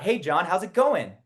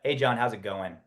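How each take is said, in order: First: The pitch rises at the end. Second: The pitch falls at the end. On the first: The speaker calls it wrong. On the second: The speaker calls it right. "It's a authority tone"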